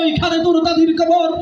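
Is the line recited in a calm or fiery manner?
fiery. It is recited in a fiery, speechmaking manner. A political leader is reciting it. "একজন আইছে নেতা, নেতাগিরি করছে সারা জীবন"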